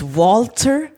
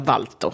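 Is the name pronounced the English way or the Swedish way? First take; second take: English; Swedish. First: The name is pronounced the English way. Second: The name is pronounced the Swedish way. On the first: "This is Walter" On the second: "på svenska kan det heta Walter"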